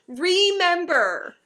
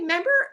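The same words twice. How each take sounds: First: The full word is said, with the first syllable. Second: The first syllable is dropped, like 'member'. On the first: "Where did the first two letters of that word go?" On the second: "very edu- well-educated people truncate"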